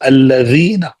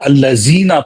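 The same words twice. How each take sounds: First: The middle consonant is a th-like dh sound. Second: The middle consonant is a plain z sound. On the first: The speaker calls it right. "दो दांतों के दरमियान जबान को निकालना है" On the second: The speaker calls it wrong. "ये जाई है अरबी में"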